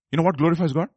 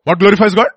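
First: Said in the usual way. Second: Louder, higher preacher's question; forceful question. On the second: Acted. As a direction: fire the question at the congregation.

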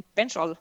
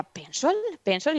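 First: Pencil as Australian pensol, vowels shifted; Australian accent. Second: Pencil asked back higher, questioning; puzzled mother. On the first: Mother demos how Australians say pencil, Australian accent. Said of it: "aquí tienen un acentazo". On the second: Mother echoes her daughter's odd word, puzzled. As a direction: echo pencil back, not getting it. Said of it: "Y yo decía". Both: Retold or imitated.

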